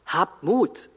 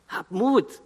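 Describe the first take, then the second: First: Said in the usual way. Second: "Habt Mut" thrown up high as a firm imperative; urgent command. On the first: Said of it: "als Imperativ". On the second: Shown as a demonstration. Preacher urging the frightened disciples, "Habt Mut" as a high, ringing command. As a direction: call out "Habt Mut" as a rousing order. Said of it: "als Imperativ, als Aufforderung".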